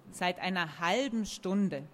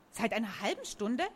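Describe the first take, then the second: First: Said in the usual way. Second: Astonished question. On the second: A narrator's reading. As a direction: echo it in disbelief. Character echoes answer in amazement.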